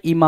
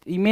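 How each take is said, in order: First: I-MAA; right vowel. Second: I-MAY; wrong vowel. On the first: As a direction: say इमा with an open "maa". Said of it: "इमा होता है". (इमा में खुला "मा" बोलें) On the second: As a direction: say इमे with a closed "may" sound. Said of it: "इमे नहीं होता है". (इमे में "मे" साफ़ बोलें) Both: Shown as a demonstration.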